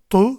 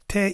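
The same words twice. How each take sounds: First: The t is heavy and thick. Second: The t is light and thin. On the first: "t kalın" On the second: "T ince"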